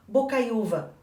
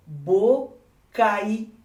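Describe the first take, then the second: First: Said in the usual way. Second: Bocaiúva stretched very slowly, syllable by syllable; drawn-out syllables. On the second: Shown as a demonstration. Teacher slowing bocaiúva down for the class, stretched out. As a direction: draw bocaiúva out so the diphthong is heard. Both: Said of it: "Ó, ditongo decrescente".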